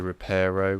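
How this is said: It is said with an American pronunciation. "Americans say Reparo"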